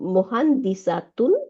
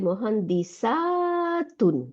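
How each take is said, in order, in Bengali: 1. "-tun"-এর আগের স্বরধ্বনিটি ছোট। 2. "-tun"-এর আগের স্বরধ্বনিটি দীর্ঘ। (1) "দ্য সিঙ্গুলার হ্যাজ শর্ট আ" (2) "প্লুরালের ক্ষেত্রে আ ইজ লং"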